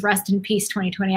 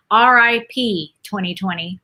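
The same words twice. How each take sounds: First: "Rest in peace" said as full words, slightly softer; words spelled out. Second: "R I P" read as three separate letters, R, I, P; letters spelled out. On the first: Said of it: "So it was". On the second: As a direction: spell out "R I P" letter by letter, then "twenty twenty". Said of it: "So it was "Rest in peace". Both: Shown as a demonstration.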